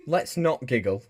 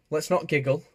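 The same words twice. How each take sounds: First: Said in the usual way. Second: Mock stern. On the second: Playful scolding.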